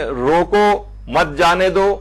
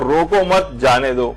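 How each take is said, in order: First: روکو, then a pause before مت جانے دو; pause demo. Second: روکو مت run together, then a pause before جانے دو; pause demo. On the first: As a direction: stop hard after روکو. (روکو کے بعد وقفہ) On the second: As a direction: break after مت. (مت کے بعد وقفہ) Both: Shown as a demonstration. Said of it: "کہیں آپ رک گئے تو معنی بدل گئے".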